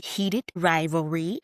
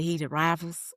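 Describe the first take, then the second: First: Slow, careful "Heated Rivalry"; "Heated Rivalry" said deliberately as the proper title; corrected title. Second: Said in the usual way. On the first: Shown as a demonstration. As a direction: spell out "Heated Rivalry" slowly, stretching each word. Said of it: "but it's clearly". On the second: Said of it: "I've been calling the Heated Rivals".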